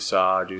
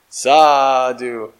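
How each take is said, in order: First: It is said calmly with little energy. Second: It is said with lively, building energy. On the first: It expresses reverence and honor. "very like a out of reverence and honor" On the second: It builds up excitement in the group. "he does it a little different to build up some enthusiasm"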